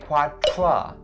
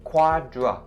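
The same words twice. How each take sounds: First: It has a voiceless TR sound. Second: It has a voiced DR sound. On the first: The speaker calls it wrong. "Please don't say quadra, because that's the voiceless consonant T R sound" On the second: The speaker calls it right. "it's a voiced consonant D R sound"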